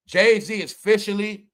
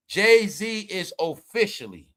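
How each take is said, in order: First: Said in the usual way. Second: Slow, drawn-out announcement; slow dramatic. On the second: Real, not acted. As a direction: stretch each word for drama. Restarted announcement, slow dramatic take.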